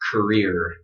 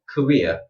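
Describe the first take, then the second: First: It is said in an American accent. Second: It is said in a British accent.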